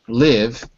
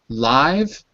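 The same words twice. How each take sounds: First: The vowel sounds like 'ih', as in pig. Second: The vowel sounds like 'eye', as in white. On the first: It is the verb. "as in pink, pig, is the verb" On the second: It is the adjective, as in alive.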